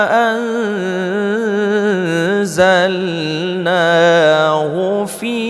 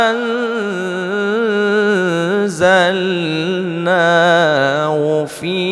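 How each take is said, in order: The two takes are said the same way.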